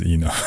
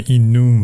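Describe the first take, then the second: First: "enum" said the American way. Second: "enum" said the speaker's own way; own pronunciation of enum. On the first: Comparing two pronunciations for viewers, "enum" the American way. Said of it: "Most Americans I know say enum". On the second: Comparing two pronunciations for viewers, "enum" the speaker's way. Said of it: "So I say enum". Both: Shown as a demonstration.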